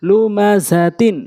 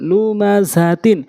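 The two takes are said the same way.

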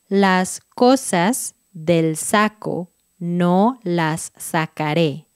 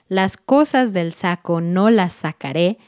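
First: It is read at a slower pace. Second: It is said at a quick pace.

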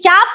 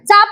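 First: The first consonant is palatal, with a y-glide. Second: The first consonant is dental, without a y-glide. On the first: It means a bow. "ययुक्त उच्चार आहे ... तालव्य; चाप म्हणलं की धनुष्य होईल" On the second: It means a clip. "चाप म्हणलं की चिमटा होईल; अयुक्त आहे म्हणजे दंत"

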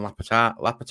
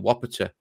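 First: The name begins with an L sound. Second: The name begins with a W sound. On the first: The speaker calls it wrong. "people saying it's Lapata and Lapata" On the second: The speaker calls it right. "it is actually Wapata"

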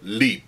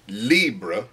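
First: The word ends short with no trailing vowel. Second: The word ends with a faint trailing vowel. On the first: "Just a very short Lib. No shadow vowel or hardly anything at the end" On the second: "I say L'Homme Libre"

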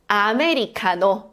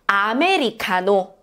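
Both takes have the same delivery.

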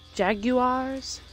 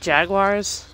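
First: It is said with a British pronunciation. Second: It is said with an American pronunciation. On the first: "Is that how they're pronounced in England?" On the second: "Maybe that's just me in my American accent?"

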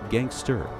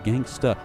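First: The final R sound is strongly pronounced. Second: The final R sound is dropped. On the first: The speaker calls it right. "with a hard R" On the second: The speaker calls it wrong. "not gangsta"

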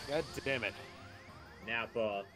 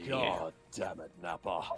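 First: It is said in his normal voice. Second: It is said in a put-on character voice.

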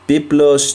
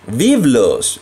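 First: The word begins with a B sound. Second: The word begins with a V sound.

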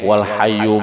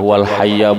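First: The word ends with a u vowel. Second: The word ends with an a vowel. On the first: This is the reading of the Kufa grammarians. "ada ulama hayyu, ulama Kufah membacanya itu" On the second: This is the reading of the Basra grammarians. "ada yang mengatakan hayya itu ulama Basrah"

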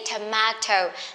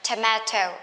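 First: Tomato is said with a British pronunciation. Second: Tomato is said with a British pronunciation.

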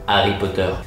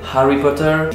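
First: The name begins with no H sound. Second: The name begins with an audible H sound. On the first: "kita bilang Harry Potter" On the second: "Kita enggak bilang Harry Potter"

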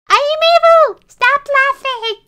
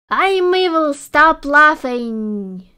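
First: It is said in a put-on kid-like voice. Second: It is said in a normal adult voice.

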